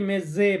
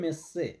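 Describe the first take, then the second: First: The middle consonant is a z sound. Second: The middle consonant is an s sound. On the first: The speaker calls it wrong. "অনেকে মেজে বলি" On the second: The speaker calls it right. "তো উচ্চারণটা হবে মেসে"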